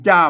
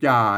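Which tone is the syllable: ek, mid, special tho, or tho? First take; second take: special tho; ek. First: The syllable is said with the special tho tone. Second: The syllable is said with the ek tone. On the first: "มันจ้ามันเสียงโทพิเศษแล้วครับ" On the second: "ใส่ไม่เอกไปจ่า"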